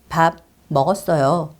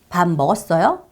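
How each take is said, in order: First: The pitch falls at the end. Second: The pitch rises at the end. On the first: It is a statement that the speaker has eaten. "끝을 내릴 거잖아요" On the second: It is a question asking whether the listener has eaten. "끝이 올라가죠"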